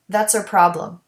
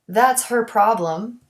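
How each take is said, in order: First: The H in 'her' is dropped. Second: The H in 'her' is clearly pronounced.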